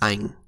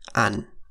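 First: A Northern accent, ending in an ang sound. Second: A Southern accent, ending in an an sound. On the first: "As a final in Northern Vietnamese, NH is pronounced as ang"

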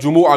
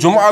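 First: The word is said with three syllables. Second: The word is said with two syllables. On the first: "और जुमुआ भी पढ़ सकते हैं" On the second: "इसको जुमा भी पढ़ सकते हैं"

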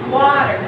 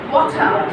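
First: The t in the middle sounds like a d. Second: The t in the middle is a clear t. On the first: "in American English, it's called water. We turn the T into a D" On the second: "But in British, it's water"

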